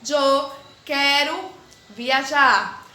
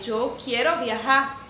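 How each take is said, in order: First: "Eu quero viajar" said slowly and louder, "Eu" as Spanish "yo" with the rest in Portuguese; slow, loud demo of "Eu quero viajar" mixing Spanish "yo" into a Portuguese "quero viajar"; portunhol example. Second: "Eu quero viajar" said slowly in full Spanish as "yo quiero viajar", with a Spanish "j"; slow demo of "Eu quero viajar" pronounced as correct Spanish "yo quiero viajar"; proper Spanish. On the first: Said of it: "exemplo de uma oração em portunhol". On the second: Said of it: "Se eu falasse o espanhol, eu falaria". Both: Shown as a demonstration.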